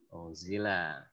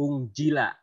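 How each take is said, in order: First: The middle consonant is a z sound. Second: The middle consonant is a j sound. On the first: The speaker calls it right. "Tapi kita zai" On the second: The speaker calls it wrong. "kalau ungjila itu huruf jim seperti ini"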